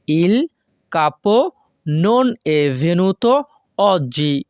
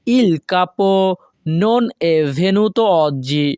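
First: "Il" "capo" "non è venuto" "oggi" said as separate chunks with pauses; chunked teacher reading; broken into pieces. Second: Slow, careful Italian model reading; teacher pacing it out; slow model sentence. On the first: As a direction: break the phrase into chunks, pause between each. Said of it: "এখানে যদি আমরা ভেঙে ভেঙে বলি". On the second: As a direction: say it slowly for learners to copy. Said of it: "এর Italian ভাষা হবে". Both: Shown as a demonstration.

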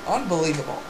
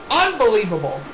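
First: Soft, low disbelief; stunned murmur. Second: Low, emphatic commentator's disbelief. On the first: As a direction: say it under your breath, stunned. Stunned commentary, first take. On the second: Repeats it emphatically. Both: Pretend.

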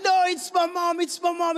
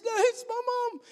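First: Put-on high, louder insistent child; insistent protest. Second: Very high mock-crying child's plea; imitated tearful protest. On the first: Lost boy arguing with the guard over his mother, insistent protest. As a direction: protest urgently in a raised, higher voice. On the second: Crying lost boy pleading with the guard, imitated tearful protest. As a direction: imitate a small boy wailing in protest, pitched way up. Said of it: "starts crying and he gets so emotional".

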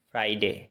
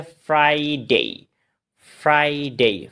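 First: "ফ্রাইডে" short, lower and softer, as phrai-de; common mispronunciation. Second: "ফ্রাইডে" as frai-dei, both syllables long; corrected pronunciation. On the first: Teacher shows the wrong "ফ্রাইডে", short phrai-de. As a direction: toss off "ফ্রাইডে" with a quick de. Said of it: "ফ্রাইডে না". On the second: Teacher models "ফ্রাইডে" for learners, full frai-dei. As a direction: lengthen both halves of "ফ্রাইডে", gliding on dei. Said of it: "এটা হচ্ছে". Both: Shown as a demonstration.

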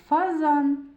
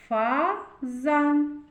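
First: Said in the usual way. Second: "Фазан" split as Фа, pause, зан; reading by syllables. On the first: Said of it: "Зробимо звуковий аналіз слова". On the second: Shown as a demonstration. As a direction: read "Фазан" slowly in two separate syllables. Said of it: "Прочитаємо". («Фазан» по складах: Фа-зан)

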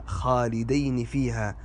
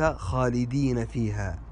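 First: "خالدين" as khalidayni; dual form. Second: "خالدين" slowly as khalidina; slow "خالدين" with long i, ending na; plural form. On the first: Teacher repeats the dual, "خالدين" said khalidayni. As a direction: say "خالدين" with ay and final ni. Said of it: "بالمثنى". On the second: Teacher names what it is not, "خالدين" said khalidina. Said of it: "وليس". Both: Shown as a demonstration.

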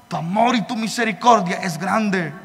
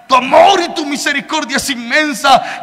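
First: Hushed prayer. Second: Said in the usual way. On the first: Retold or imitated. Retold bedtime prayer to God.

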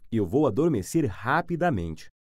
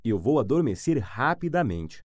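Both takes have the same delivery.

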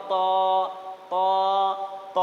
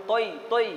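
First: ত with a pure rounded "aw", held; correct reading. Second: তৈ with an "oi" diphthong; incorrect reading. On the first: Teacher corrects the mistake, ত drawn out and rounded. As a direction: hold ত as "taw", no i glide. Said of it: "ত হবে". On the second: Teacher shows the common mistake, তৈ as "toi". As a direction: end তৈ on an i glide. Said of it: "তৈটা আসলে শুদ্ধ নয়". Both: Shown as a demonstration.

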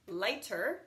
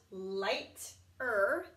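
First: Said in the usual way. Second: Light-er split into two parts; Light-er with a break; sounded out. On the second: Shown as a demonstration. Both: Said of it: "Same with this one".

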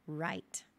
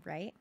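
First: "Right" falling, settled; "Right" comes down as a statement; confirming answer. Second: "right" short and rising; "right" lifts as a query; checking question. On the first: Storyteller confirms. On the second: Listener checks understanding. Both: Acted.

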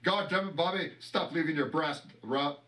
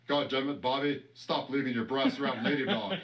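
First: A light, slightly raised Hank Hill twang on the scolding; Hank Hill impression. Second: Hank Hill impression. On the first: Redoing the Hank Hill line for the camera, lightly voiced. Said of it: "let me do it again". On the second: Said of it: "greatest Hank Hill impression".

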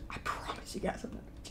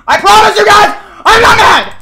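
First: Very soft, voiceless whisper; whispered denial. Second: Loud, high-pitched yell; shouted denial. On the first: Streamer assuring chat he is not mad, tiny whisper. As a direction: whisper the promise almost inaudibly. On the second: Streamer insisting to chat he is not mad, furious-sounding shout. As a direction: yell the promise, contradicting the calm words. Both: Real, not acted.

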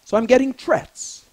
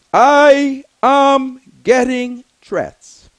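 First: Said in the usual way. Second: "I am getting threats" slow and much louder, each word hammered; slow emphatic insistence. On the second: Shown as a demonstration. Speaker insisting to his listeners that the threats are real, slow and hammered. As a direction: lean hard on every word of "I am getting threats".

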